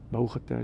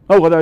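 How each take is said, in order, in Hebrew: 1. היא נאמרת לאט ובנחת. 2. היא נאמרת במהירות ובחיפזון. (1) "ועכשיו תברך בנחת" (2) "לא ככה"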